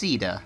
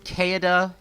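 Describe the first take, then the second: First: The name begins with an S sound. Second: The name begins with a K sound. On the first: The speaker calls it right. "her name is actually pronounced Sida" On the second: The speaker calls it wrong. "I've re referred to this character as Kaeda"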